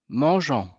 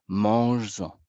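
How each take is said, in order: First: It is said with no z sound before en. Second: It is said with a z sound before en. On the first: The speaker calls it wrong. "Est-ce que c'est correct?" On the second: The speaker calls it right. "pour garder cette même prononciation, je vais devoir ajouter ici un S"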